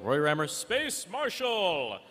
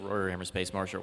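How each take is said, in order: First: It is said in a dramatic, announcer-like way. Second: It is said in a plain, ordinary way. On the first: The speaker calls it right. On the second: The speaker calls it wrong.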